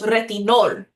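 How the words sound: It is pronounced with Spanish sounds. "In Spanish"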